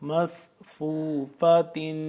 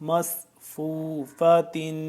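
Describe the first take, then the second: No difference in how they are said.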